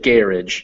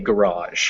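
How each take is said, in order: First: The stress is on the first syllable. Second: The stress is on the second syllable. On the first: "Britain they say garage" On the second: "In America we say garage because we just we just do it the French way"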